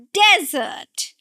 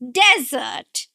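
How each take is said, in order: First: The stress is on the first syllable. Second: The stress is on the first syllable.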